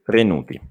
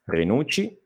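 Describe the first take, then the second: First: Low "Renuti", T not ch; T version. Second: Softer "Renucci" with a ch, rising ending; soft "Renucci", ch not T, left hanging; ch version. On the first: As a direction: lower "Renuti" with a T, falling ending. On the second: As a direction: quietly model re-NOOT-chee for "Renucci". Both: Shown as a demonstration. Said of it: "la differenza è questa".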